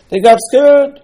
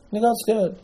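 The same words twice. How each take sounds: First: Very high, loud outburst; loud exclamation. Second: High but soft echo; hushed repeat. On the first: Preacher tells why the spies failed, loud exclamation. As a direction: cry it out high as the big reveal. Explains the spies' failing, says it twice. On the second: Preacher repeats the spies' failing to his listeners, hushed repeat. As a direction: drop the volume, keep the pitch high. Repeats the point, dropping volume. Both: Real, not acted.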